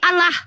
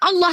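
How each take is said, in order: First: The L is single and said light and clear. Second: The L is doubled and said heavy and dark. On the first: This is the reading the other side claims to use. The speaker calls it wrong. "bacaannya bukan Allah tapi Allah" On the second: This is the reading of the Arabic name. The speaker calls it right. "Lafaz alim lam jalalahnya harus ditafkim"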